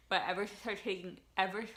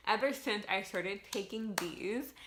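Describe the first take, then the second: First: Talking with a retainer in; words slurred by a retainer; wearing a retainer. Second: Said in the usual way. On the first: Real, not acted. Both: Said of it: "I have my retainers on and I can't talk".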